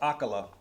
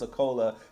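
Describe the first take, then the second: First: The middle vowel sounds like 'a'. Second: The middle vowel sounds like 'o'. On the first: The speaker calls it right. "his name is pronounced Akala" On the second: The speaker calls it wrong. "I'm over here saying Akola like he's some type of beverage"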